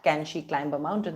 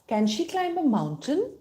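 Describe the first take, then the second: First: The pitch stays flat throughout. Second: The pitch moves like a real question. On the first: The speaker calls it wrong. "they're not going to just say it flat" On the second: The speaker calls it right. "They're going to say"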